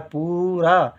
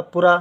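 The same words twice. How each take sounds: First: पूरा with पू held long; पूरा with a drawn-out first syllable; correct long oo. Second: पूरा said quickly as पुरा, louder; पूरा with a brief first vowel; wrong short u. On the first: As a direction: stretch the oo in पूरा. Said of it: "देर तक हो रहा है". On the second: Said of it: "यदि कम देर तक होता". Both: Shown as a demonstration.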